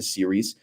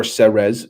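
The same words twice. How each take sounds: First: "Ceres" in the speaker's first-choice pronunciation. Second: "Ceres" offered as a variant pronunciation; alternative pronunciation of Ceres. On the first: Streamer telling viewers where he went, first pronunciation of "Ceres". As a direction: say "Ceres" the first of two ways. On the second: Streamer correcting himself for viewers, alternative pronunciation of "Ceres". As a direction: say "Ceres" the other way. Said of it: "depending how you pronounce it". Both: Shown as a demonstration.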